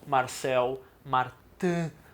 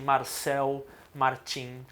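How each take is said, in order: First: The name is said with French pronunciation. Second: The name is said with Brazilian Portuguese pronunciation. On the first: "se for para fazer a pronúncia exata do francês" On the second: "eu vou falar aqui do jeito P T B R"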